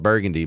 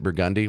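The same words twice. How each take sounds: First: The word is said the usual way, as spelled. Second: The word is said the local way. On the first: "It's spelled Burgundy" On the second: "but they pronounce it Burgundy"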